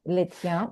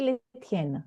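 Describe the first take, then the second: First: LES TIENS ending in a nasal vowel, no final N; "Les tiens" as lay tyan, the N left silent; masculine plural form. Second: LES TIENNES with the final N sounded; "les tiennes" as lay tyen, not nasalised; feminine plural form. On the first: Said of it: "the plural is this for masculine". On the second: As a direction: say "les tiennes" ending in a clear N. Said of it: "chaussure is feminine, so we will say". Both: Shown as a demonstration.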